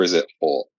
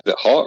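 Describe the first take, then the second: First: "Hot" said as "hawt"; "Hot" with a long "aw" vowel. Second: Said in the usual way. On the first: Shown as a demonstration. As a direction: round the vowel of "Hot" to an aw sound. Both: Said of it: "Like H A W T?".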